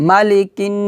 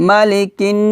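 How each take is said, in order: The two takes are said the same way.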